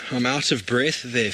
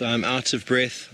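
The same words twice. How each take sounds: First: Breathless after the excitement, catching air; puffing between words, really winded; out of breath. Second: Slow, breathless, still recovering; winded and slowing down, gasping lightly; out of breath. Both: Real, not acted.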